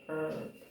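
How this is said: The word is said with an American pronunciation. "Americans we say herb"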